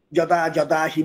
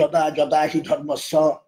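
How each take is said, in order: First: যদা যদা হি said at an even, steady classroom pace; teaching demo. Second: যদা যদা হি ধর্মস্য stretched out slowly, every syllable spaced; slow teaching demo. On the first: Teacher modelling যদা যদা হি for an unlettered girl. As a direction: model যদা যদা হি plainly for a beginner. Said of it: "তাকে আপনি জানাচ্ছেন". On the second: Teacher slowly dictating যদা যদা হি ধর্মস্য for a pupil. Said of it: "বর্গী জয় বলুন আপনি". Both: Shown as a demonstration.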